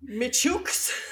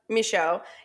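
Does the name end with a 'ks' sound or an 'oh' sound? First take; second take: ks; oh. First: The name ends in a 'ks' sound. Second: The name ends in an open 'oh' sound. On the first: The speaker calls it wrong. "I didn't want to go Michooks. I could tell it was not going to be right" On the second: The speaker calls it right. "That's Michaud. Yeah, I Googled the pronunciation of it"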